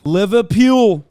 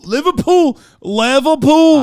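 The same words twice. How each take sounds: First: Loud, slow hammed-up "Liverpool" in Scouse; Scouse accent. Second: High, loud, stretched Scouse "Liverpool"; Scouse accent. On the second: Retold or imitated. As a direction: belt out "Liverpool" like a hammed-up Scouser. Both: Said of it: "I was thinking Liverpool".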